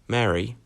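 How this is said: It is said as a call to someone. It begins speaking to her. "that sounds like you're about to start speaking to her"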